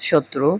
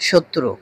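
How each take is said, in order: Both takes have the same delivery.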